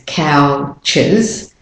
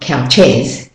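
First: The second syllable has a weak schwa vowel. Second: The second syllable has a full, stressed vowel. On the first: The speaker calls it right. "it's pronounced as the schwa sound, the weak form of the vowel" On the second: The speaker calls it wrong. "So it's not couches"

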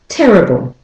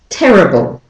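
Both takes have the same delivery.

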